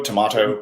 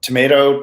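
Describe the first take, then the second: First: "tomato" as to-MAH-to; broad "ah" in the middle of "tomato"; broad-A pronunciation. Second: "Tomato" as to-MAY-to; long A in "Tomato"; American long-A pronunciation. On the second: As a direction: middle of "Tomato" rhymes with "may". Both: Shown as a demonstration. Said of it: "It's like".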